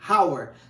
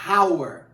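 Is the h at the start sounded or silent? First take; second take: sounded; sounded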